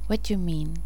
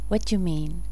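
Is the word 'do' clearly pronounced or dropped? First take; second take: dropped; dropped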